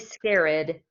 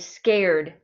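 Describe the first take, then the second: First: The word is said as two syllables. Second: The word is said as one syllable. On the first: The speaker calls it wrong. "We do not say" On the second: The speaker calls it right. "it's just one syllable"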